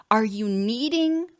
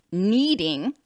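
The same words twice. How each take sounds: First: Said in the usual way. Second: Needing leaned on, drawn out with a rise; stress on needing. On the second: Shown as a demonstration. Therapist coaching a client, stressing needing. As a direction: press on the word needing. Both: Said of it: "emphasis on that word".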